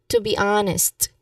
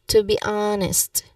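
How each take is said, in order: No difference in how they are said.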